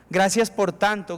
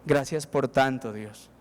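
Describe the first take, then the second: First: Said in the usual way. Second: Slow, much lower and softer thanks; quiet prayer. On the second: Pretend. Humble heart thanks God, slow and hushed. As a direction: pray it slowly, hushed. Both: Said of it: "le dice a Dios".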